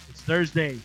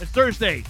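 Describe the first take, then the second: First: It is said flatly, with little energy. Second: It is said excitedly, with more energy. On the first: The speaker calls it wrong. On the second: The speaker calls it right.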